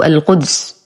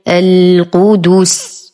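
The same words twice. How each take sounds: First: The dal has an unrounded vowel. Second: The dal has a rounded u vowel. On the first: The speaker calls it wrong. "يقرأها خطأ" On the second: The speaker calls it right. "نهيئ شفتينا بضمهما"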